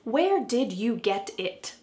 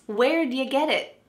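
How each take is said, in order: First: Every word is pronounced fully and slowly. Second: 'Did you' is reduced and blended quickly. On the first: The speaker calls it wrong. "But do you think we say it like this?" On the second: The speaker calls it right. "let's see how this is actually said"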